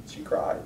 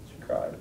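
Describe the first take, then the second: First: She cried said softly; quiet. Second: She cried whispered, much lower. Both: Real, not acted.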